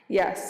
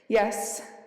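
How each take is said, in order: First: It is said in a croaky voice. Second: It is said in a clear, confident voice.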